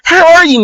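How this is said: It is said in a bright, cheerful voice. "if they're like a happy person"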